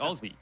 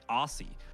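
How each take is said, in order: First: It has an Australian z sound in the middle. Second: It has an American s sound in the middle.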